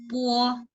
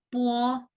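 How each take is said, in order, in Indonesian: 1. Ada sedikit glide u sebelum o. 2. Ada sedikit glide u sebelum o.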